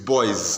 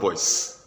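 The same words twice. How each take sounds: First: The word ends with a buzzing Z sound. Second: The word ends with a hissing S sound. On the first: The speaker calls it right. "It's boys, ... in pronunciation you start seeing Z" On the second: The speaker calls it wrong. "not boys"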